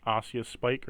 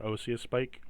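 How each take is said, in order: First: "Osseous" said with an open AH at the start; alternate pronunciation. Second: "Osseous" said with a long OH at the start; alternate pronunciation. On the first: Game master offering players another pronunciation, "Osseous" as AH-see-us. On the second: Game master offering players a second pronunciation, "Osseous" as OH-see-us. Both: Shown as a demonstration. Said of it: "however you wanna pronounce it".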